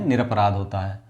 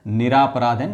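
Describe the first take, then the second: First: निरपराध with a short a after र; निरपराध said as nir-a-pa-raadh, short and clipped; शब्द निरपराध को छोटे अ के साथ बोलना; correct form. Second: निरापराध with a long aa after र; निरापराध said as ni-raa-pa-raadh, stretching the aa; शब्द निरापराध को लंबे आ के साथ बोलना; wrong spelling read out. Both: Shown as a demonstration.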